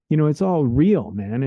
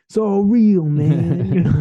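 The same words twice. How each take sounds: First: Said in the usual way. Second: Higher, louder laid-back hippie voice. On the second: Shown as a demonstration. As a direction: play a chilled-out hippie. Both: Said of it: "sound like a hippie".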